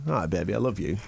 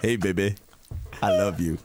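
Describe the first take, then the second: First: Crooning a sleazy come-on; sleazy lover voice. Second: Deep crooning come-on; sleazy lover voice. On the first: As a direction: lay on the sleaze like a lounge lothario. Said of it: "that sleazy accent that I just did". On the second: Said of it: "That's how I did it". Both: Retold or imitated.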